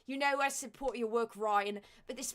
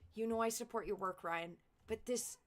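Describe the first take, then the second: First: It is read in a put-on Australian accent. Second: It is read in the speaker's plain accent.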